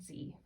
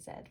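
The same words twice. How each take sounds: First: The letter is said as 'zee', American style. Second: The letter is said as 'zed', Canadian style.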